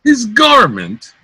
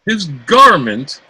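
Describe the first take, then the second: First: Much higher, louder, incredulous rage; enraged, escalated repeat of the insult; furious repeat. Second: Loud, stung repeat of the insult; indignant, offended outburst; outraged retort. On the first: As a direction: shriek it back, beside himself. Cloten repeats, more enraged. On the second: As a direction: fling it back at her. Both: Acted.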